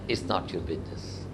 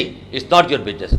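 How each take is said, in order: First: It is said in a soft, gentle tone. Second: It is said in an angry, sharp tone. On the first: The speaker is politely declining to answer. "तो आपने उसे प्यार से बोला" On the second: The speaker is fed up with being asked. "आप उसे गुस्से से बोलते हैं"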